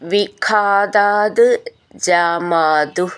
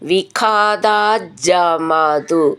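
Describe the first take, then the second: First: The two words are said separately. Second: The two words are run together.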